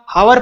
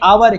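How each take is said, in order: First: The word begins with an h sound. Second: The word begins with a vowel sound. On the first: The speaker calls it wrong. "हावर पढ़ते हो क्या?" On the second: The speaker calls it right. "क्योंकि एच silent होता है।"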